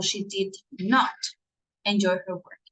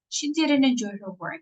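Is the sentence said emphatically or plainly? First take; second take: emphatically; plainly. First: The sentence is said with strong added emphasis. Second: The sentence is said plainly, without extra stress. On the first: She really did not enjoy her work. "It's like she really did not enjoy her work" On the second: It simply states she did not enjoy her work. "just simple sentence"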